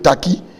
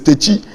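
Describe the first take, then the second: First: The name is said as Taki. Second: The name is said as Techi. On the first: This is the name as changed in Accra. The speaker calls it wrong. "when it comes to Accra, it became Taki" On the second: This is the name's original form. The speaker calls it right. "if it is Techi"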